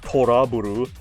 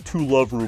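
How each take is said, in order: First: The title is said with Japanese-style sounds. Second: The title is said with English-style sounds. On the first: The speaker calls it right. "I know it's Toraburu" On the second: The speaker calls it wrong. "I choose to pronounce it incorrectly"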